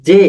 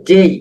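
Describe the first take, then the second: First: Said in the usual way. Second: জেই said as "jei" with a gliding ei ending; corrected letter name. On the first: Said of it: "আমরা পড়ি যে". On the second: Shown as a demonstration. Teacher showing students the right জেই, a clear demo. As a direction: say জেই, not জে, ending on a long ei. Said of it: "এটির উচ্চারণ হবে".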